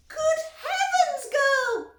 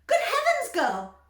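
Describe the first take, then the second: First: Very high, loud, slow screech; mother screeching at Violet. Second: Very high, loud shriek; mother shrieking at Violet. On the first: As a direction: screech in horror. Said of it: "screeched Missus Beauregard". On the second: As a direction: shriek in horror. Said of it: "shrieked Missus Beauregard". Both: A narrator's reading.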